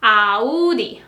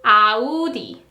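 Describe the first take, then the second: No difference in how they are said.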